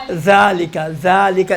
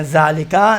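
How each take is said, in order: First: ذالکا with the tongue tip between the teeth; tongue-tip zaal. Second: ذالکا with a plain z, tongue behind teeth; wrong zaal. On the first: Teacher corrects the mistake, tongue-tip zaal. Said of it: "یہ بھی نوک زبان میں سے ہے". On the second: Teacher shows the mistake, plain z. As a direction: buzz ذالکا with an Urdu z. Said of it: "ذالکا نہیں ہے". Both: Shown as a demonstration.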